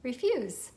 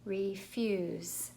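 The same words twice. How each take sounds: First: Said in the usual way. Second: "Refuse" slowly, in two stretched syllables; sounding out. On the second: Shown as a demonstration. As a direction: draw out each part of "Refuse". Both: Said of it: "So let's try it".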